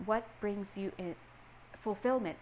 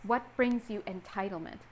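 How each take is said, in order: First: A hesitant pause, then "fulfillment"; pause before fulfillment. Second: Said in the usual way. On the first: Shown as a demonstration. Reader pausing to swap in a gentler word for her viewers. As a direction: hang on a beat before "fulfillment". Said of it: "You heard how I paused?". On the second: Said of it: "The word that they wanted to say was entitlement".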